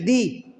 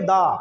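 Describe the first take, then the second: First: The vowel is a long 'ee' sound. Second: The vowel is a short 'uh' sound. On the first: The next word begins with a vowel sound. "अगर बॉवेल है लगा है, बॉवेल sound से कोई हम word पढ़ रहे हैं तो उसमें दी बोलेंगे।" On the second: The next word begins with a consonant sound. "दी को दा तब बोलेंगे जब बॉवेल नहीं है"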